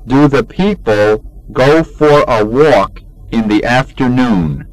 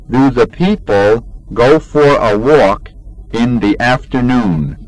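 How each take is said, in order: Both takes have the same delivery.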